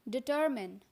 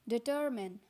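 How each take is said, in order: No difference in how they are said.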